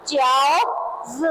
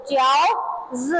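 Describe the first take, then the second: First: च्याओज stretched out slowly, each sound clear; slow pronunciation model. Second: Said in the usual way. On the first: Shown as a demonstration. Teacher models च्याओज slowly for students to repeat. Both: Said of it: "क्या पढ़ेंगे इसे?".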